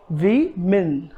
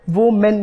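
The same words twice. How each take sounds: First: वी मिन split into two syllables; correct pronunciation. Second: वो मेन with "wo" and "men"; wrong pronunciation. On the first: Teacher drilling the correct word syllable by syllable, वी मिन. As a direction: break women into "wi... min". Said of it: "the correct pronunciation is". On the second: Teacher rejecting the mistake in a drill, वो मेन as "wo-men". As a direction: say women as "wo-men", both syllables full. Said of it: "नहीं". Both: Shown as a demonstration.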